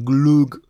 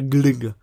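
First: The vowel sounds like u. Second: The vowel sounds like Polish y. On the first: The speaker calls it wrong. "nie glug" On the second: The speaker calls it right. "a glyg. Tak, to jest jego poprawna wymowa"

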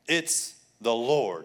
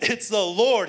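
First: It is said at normal volume. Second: It is shouted loudly.

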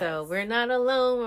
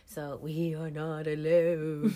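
First: It is said in her normal voice. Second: It is said in a put-on spooky voice.

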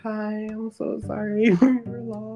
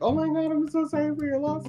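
First: It is said in a dramatic, solemn tone. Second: It is said in a casual tone.

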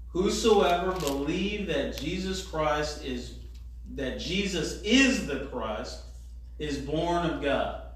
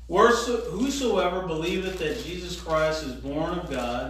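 First: The verse is read at a slower pace. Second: The verse is read at a faster pace.

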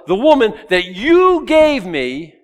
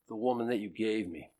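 First: It sounds accusing, blaming the listener. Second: It sounds resigned and confessing, with a sigh.

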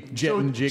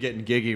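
First: The word starts with a j sound. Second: The word starts with a hard g sound. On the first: The speaker calls it right. "is a J" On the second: The speaker calls it wrong. "otherwise, it'd be getting giggy with it"

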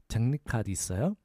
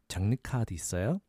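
No difference in how they are said.

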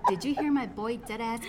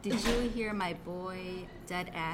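First: The sentence is spoken at a normal pace. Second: The sentence is spoken slowly and deliberately.

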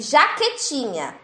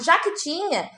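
First: It is said slowly, words kept apart. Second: It is said fast, words run together.

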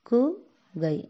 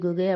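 First: The word is split into two separate syllables. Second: The word is said as one unbroken unit. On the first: The speaker calls it right. "கு கை குகை" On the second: The speaker calls it wrong. "குகை குகை அப்படி படிக்கக்கூடாது"

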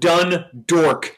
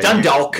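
First: The second syllable sounds like 'dork'. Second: The second syllable sounds like 'dawk'. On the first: "I was calling them Dundork, D-O-R-K" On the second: "I'm American, so I should really be saying"

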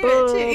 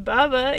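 First: It is said deeply, with force from the belly. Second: It is said plainly, without extra force.

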